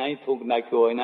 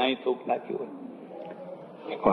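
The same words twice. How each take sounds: First: Rapid disgusted repeat. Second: Disgusted whisper. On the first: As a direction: rattle off 'અહીં થૂંક નાખ્યું હોય ને' fast. Repeats spitting complaint, varied. (ઝડપી, અણગમાભર્યું પુનરાવર્તન) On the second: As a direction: whisper 'અહીં થૂંક નાખ્યું હોય' slowly, voice dropped away. Repeats spitting complaint, whispered. (ધીમે, ગુસપુસ અવાજે અણગમો) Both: Acted.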